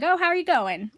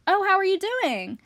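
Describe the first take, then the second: First: High-pitched mock British question; imitated British small talk, high in the voice; British greeting demo. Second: Higher-pitched American-style question; lively mock American small talk, voice raised high; American greeting demo. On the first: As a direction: put on a playful British voice, pitched up. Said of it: "But if you're British, you're like". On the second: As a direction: act out an American asking, pitched well up. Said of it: "when you're American, you say stuff like". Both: Shown as a demonstration.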